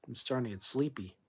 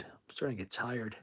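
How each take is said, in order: First: Sleepy. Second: Tired. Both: Real, not acted.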